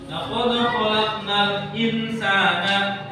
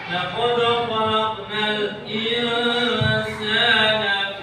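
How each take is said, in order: First: The n in insana is pronounced clearly. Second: The n in insana is hidden and nasalized. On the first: The speaker calls it wrong. "tidak boleh" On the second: The speaker calls it right. "Harus dibaca ikhfa, samar-samar"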